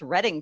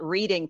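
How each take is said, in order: First: The name is pronounced the way locals say it. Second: The name is pronounced the way outsiders say it. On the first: The caller sounds like a local. The speaker calls it right. "it's Reading" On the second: The caller is not from the area. The speaker calls it wrong. "we're mispronouncing the name of the street because we're not from there"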